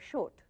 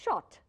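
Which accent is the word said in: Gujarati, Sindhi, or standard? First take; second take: Gujarati; standard. First: Said in a Gujarati accent, sounding like short. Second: Said with the standard pronunciation. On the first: The speaker calls it wrong. "The the Gujarati will say short" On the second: The speaker calls it right. "But actually, it's shot"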